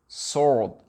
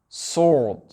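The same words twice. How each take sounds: Both takes have the same delivery.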